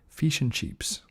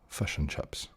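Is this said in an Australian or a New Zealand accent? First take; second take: Australian; New Zealand. First: The vowels in fish and chips are clear I sounds. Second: The vowels are pulled back, sounding more like U. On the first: "a typical Australian might say" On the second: "a New Zealander is a bit sort of slightly more stopped and sort of further back in the in the throat, would say fish and chips with a U instead of like an I"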